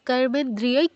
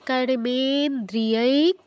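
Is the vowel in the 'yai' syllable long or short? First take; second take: short; long. First: The 'yai' vowel is kept short. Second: The 'yai' vowel is drawn out long. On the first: The speaker calls it wrong. "কর্মেন্দ্রিয়ৈক নয়" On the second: The speaker calls it right. "দ্রিয়ৈক মানে ইয়ৈতে দীর্ঘ"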